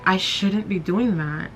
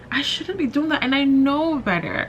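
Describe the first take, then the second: First: Said in the usual way. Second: Pitched up high, rising as she scolds herself; higher self-scolding. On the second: Real, not acted. Vlogger telling herself off for comparing careers, pitched high. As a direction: jump way up in pitch, chiding yourself.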